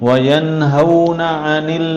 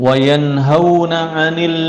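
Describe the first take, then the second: No difference in how they are said.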